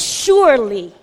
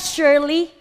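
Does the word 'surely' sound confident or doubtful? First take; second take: confident; doubtful. First: The word sounds strong and confident. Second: The word sounds hesitant and doubtful. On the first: The speaker is certain. The speaker calls it right. "It is the exclamation of confidence, a strong affirmation" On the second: The speaker is unsure. The speaker calls it wrong. "It's not surely"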